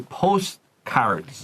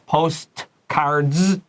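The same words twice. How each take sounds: First: The t and d sounds are dropped. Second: Every consonant, including t and d, is pronounced. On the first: The speaker calls it right. "We'll say postcards" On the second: The speaker calls it wrong. "postcards is not a good way to say this. We have t's and k"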